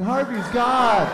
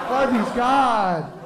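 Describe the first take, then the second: First: High, very slow frightened hen; cowed chicken. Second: High, slower still, trailing hen; cowed chicken. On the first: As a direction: draw out "Harvey's God" in a high hen voice. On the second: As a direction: stretch "Harvey's God" even further in a high hen voice. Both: Retold or imitated. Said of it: "Meryl Streep chicken's in the corner like".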